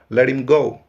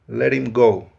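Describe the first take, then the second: First: The h is silent; the t sounds like r. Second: The h is silent; the t sounds like r.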